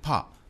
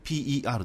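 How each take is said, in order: First: It is said as one short word. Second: It is spelled out letter by letter. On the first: The speaker calls it wrong. "本当はパーって言わないんですけど" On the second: The speaker calls it right. "PER なんですが"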